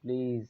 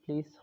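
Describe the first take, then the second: First: The word ends with a buzzing z sound. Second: The word ends with a hissing s sound. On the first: "বর্গীয় জ হলে প্লিজ হয়" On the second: "দন্ত স হলে প্লিজ হয়"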